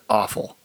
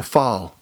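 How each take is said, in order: First: It sounds just like the word awful. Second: It starts with a short vowel like off. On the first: The food sounds unappetizing. The speaker calls it wrong. "you're going to pronounce it awful" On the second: The food no longer sounds unappetizing. The speaker calls it right. "It's time to turn things a little bit. Tweak it"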